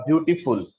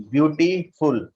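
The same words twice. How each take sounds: First: Said in the usual way. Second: "beautiful" slowly broken into "beauti" and "ful"; split into syllables. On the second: Shown as a demonstration. Teacher showing the syllables, "beautiful" said slowly in parts. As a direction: stretch and separate the parts of "beautiful". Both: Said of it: "two syllable are there".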